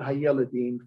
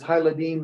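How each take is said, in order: First: An 'e' vowel is heard after 'hay'. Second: No vowel is heard after 'hay'. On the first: The speaker calls it wrong. "not Hayeladim" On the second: The speaker calls it right. "it's Hayladim"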